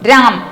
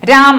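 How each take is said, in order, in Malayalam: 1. ഈ വാക്ക് m ശബ്ദത്തിലാണ് അവസാനിക്കുന്നത്. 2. ഈ വാക്ക് m ശബ്ദത്തിലാണ് അവസാനിക്കുന്നത്.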